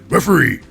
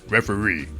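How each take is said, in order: First: It is said in an odd, put-on voice. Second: It is said in a natural speaking voice. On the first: This is how the speaker imagines the line was said. "Like that too, in that voice" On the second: This is how the person really sounds. "Even though he sounds like this"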